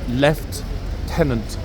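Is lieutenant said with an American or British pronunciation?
British. The word is said with a British pronunciation. The speaker calls it right. "the British pronunciation"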